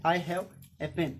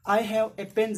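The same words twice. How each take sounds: First: Very slow repeat; slow example. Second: Louder slow example; example read. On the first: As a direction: say it slowly again. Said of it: "तब मेरे पास". (बहुत धीरे दोहराना) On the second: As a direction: state the example clearly. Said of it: "तब मेरे पास एक object है". (ज़ोर से उदाहरण) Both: Shown as a demonstration.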